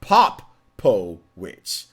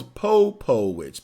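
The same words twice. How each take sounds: First: Popowich in slow pieces, "POP... po... witch"; corrected name pronunciation. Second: Popowich with long O, "POH-po-witch"; mistaken name pronunciation. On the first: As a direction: spell out Popowich by sound, loud short POP first. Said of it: "but no, it's Popowich". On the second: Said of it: "I thought it was Popowich". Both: Shown as a demonstration.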